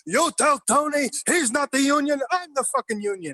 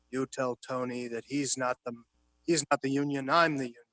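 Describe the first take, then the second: First: Imitating an angry outburst. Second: Low, hushed run-through of the line; quiet rehearsal read. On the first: Retelling Pacino's real take on set, a hammed-up furious shout. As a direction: belt it like a gangster blowing up in a scene. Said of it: "this guy stands up and goes". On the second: Retold or imitated. Retelling how Pacino quietly rehearsed his line with De Niro, softly. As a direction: murmur it like actors rehearsing at a table. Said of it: "they're quietly rehearsing".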